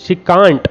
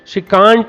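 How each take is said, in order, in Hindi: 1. Can't में एक लंबा खुला स्वर है, जैसे "father" में। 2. Can't में एक लंबा खुला स्वर है, जैसे "father" में।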